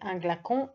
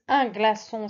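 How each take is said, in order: First: The c is sounded as a hard k. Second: The c is sounded as a soft s. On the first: The speaker calls it wrong. "sinon c'est un glacon, et ça veut rien dire" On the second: The speaker calls it right. "c'est bien le C C dit"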